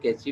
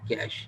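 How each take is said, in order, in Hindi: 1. शब्द का अंत ee ध्वनि से होता है। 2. शब्द का अंत साधारण sh ध्वनि से होता है। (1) "लोग इसको कैची भी पढ़ लेते हैं" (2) "लेकिन आपने क्या प्रोनाउंस करना है"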